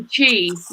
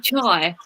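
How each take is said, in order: First: The vowel sounds like 'ee', as in 'chee'. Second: The vowel sounds like 'eye', as in 'chai'. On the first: This is how a newcomer said it. "I used to say chi when I first moved here" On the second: This is how local people say it. "Local people say chai"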